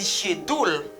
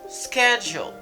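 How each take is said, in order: First: The word does not begin with an sk sound. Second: The word begins with an sk sound. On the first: The speaker calls it wrong. "Mba di schedule" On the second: The speaker calls it right.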